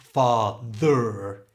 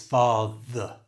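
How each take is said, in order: First: The ending is a full 'er' sound. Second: The ending is a weak schwa sound. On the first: The speaker calls it wrong. "So it's not father" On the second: The speaker calls it right. "the er is changed to the schwa sound"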